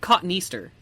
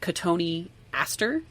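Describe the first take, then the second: First: The word is said like cotton Easter. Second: The word is not said as cotton Easter. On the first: The speaker calls it wrong. "I always said cotton Easter" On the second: The speaker calls it right. "you're just like Cotoneaster"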